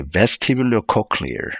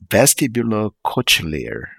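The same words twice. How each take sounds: First: Vestibulocochlear with a hard k in "cochlear"; checked pronunciation. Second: Vestibulocochlear with a "ch" in "cochlear", slow; mistaken trial pronunciation. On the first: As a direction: practise vestibulocochlear as "vesti-bulo-COCK-lear", pitched up. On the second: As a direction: sound out vestibulocochlear as "vesti-bulo-COTCH-lear". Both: Shown as a demonstration. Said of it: "let me double check".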